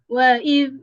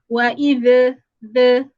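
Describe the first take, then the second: First: The final consonant stops cleanly without any bounce. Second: The final consonant is released with an echoing bounce. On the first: The speaker calls it right. "bacaannya sepatutnya dia akan jadi" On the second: The speaker calls it wrong. "jangan sampai ada the the pada huruf zal"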